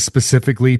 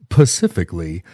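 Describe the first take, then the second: First: The word begins with an s sound. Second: The word begins with a p sound. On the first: The speaker calls it right. "instead of saying specifically" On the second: The speaker calls it wrong. "people will say"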